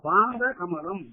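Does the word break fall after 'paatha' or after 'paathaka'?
after paatha. The break falls after 'paatha'. The lotus that is the feet. "பாத கமலம்னா பாதமாகிய தாமரை"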